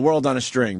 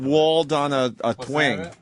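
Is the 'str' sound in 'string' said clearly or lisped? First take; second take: clear; lisped. First: The words are said clearly, with a full 'str' sound. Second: The words are slurred, with 'string' said as 'twing'.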